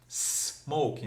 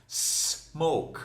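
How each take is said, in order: Both takes have the same delivery.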